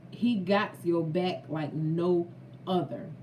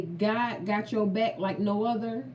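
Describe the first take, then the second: First: "he got your back like no other" spaced out, falling on "other". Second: Said in the usual way. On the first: Real, not acted. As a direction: drive home "got your back like no other" with breaks between phrases. Repeats own saying for emphasis.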